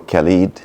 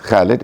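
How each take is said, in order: First: The name is pronounced with English sounds. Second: The name is pronounced with Arabic sounds. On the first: "in English" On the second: "in Arabic"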